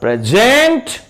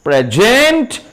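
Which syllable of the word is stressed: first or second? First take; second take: second; second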